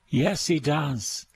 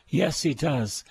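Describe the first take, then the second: No difference in how they are said.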